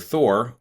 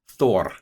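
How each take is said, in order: First: The name is said with an English pronunciation. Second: The name is said with an Icelandic pronunciation.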